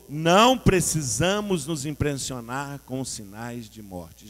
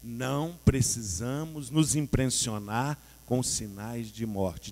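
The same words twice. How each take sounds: First: Louder, slow and emphatic; said again louder. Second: Said in the usual way. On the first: Shown as a demonstration. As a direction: declare it stronger the second time. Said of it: "De novo". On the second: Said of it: "Vamos falar isso?".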